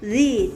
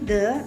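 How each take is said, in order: First: It is the form used before vowels. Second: It is the usual form before consonants. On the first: The speaker calls it right. "tetapi the" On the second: The speaker calls it wrong. "bukan lagi the"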